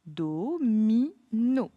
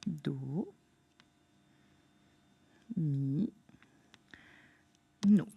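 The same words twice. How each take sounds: First: «Do, mi, no» détaché, chaque syllabe bien séparée; découpe «Do, mi, no» en trois temps nets; syllabe par syllabe. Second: «Do, mi, no» très lent, plus grave, longues pauses entre syllabes; étire «Do, mi, no» lentement, voix plus basse; syllabes lentes et basses. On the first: (prononciation syllabée) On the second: (syllabation lente et grave) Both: Shown as a demonstration. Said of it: "Trois syllabes".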